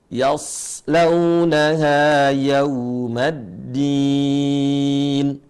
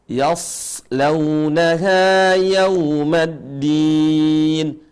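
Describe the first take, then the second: The two takes are said the same way.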